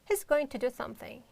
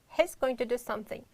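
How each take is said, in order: No difference in how they are said.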